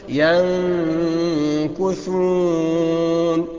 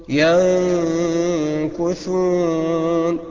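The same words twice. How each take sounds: No difference in how they are said.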